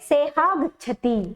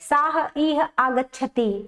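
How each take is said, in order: First: The words are merged together into one form. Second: The words are said separately, without merging. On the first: "या फिर वो बोले" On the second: "अलग अलग करके बोले, विभक्त करके बोले"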